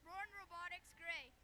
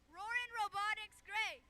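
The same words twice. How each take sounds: First: It is said flatly, with little energy. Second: It is said loudly, with lots of energy.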